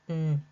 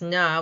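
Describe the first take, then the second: First: The consonant is clipped with no vowel after. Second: The consonant is followed by an added vowel. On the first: The speaker calls it right. "when it's just n" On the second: The speaker calls it wrong. "N is incorrectly pronounced as na"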